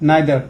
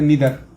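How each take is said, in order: First: It starts with a 'nye' sound, British style. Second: It starts with a 'nee' sound, American style.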